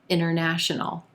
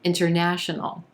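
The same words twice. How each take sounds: First: The T after the N disappears completely. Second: The T after the N is clearly pronounced.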